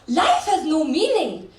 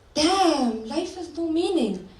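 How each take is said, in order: First: It sounds freeing and upbeat. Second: It sounds despairing and defeated.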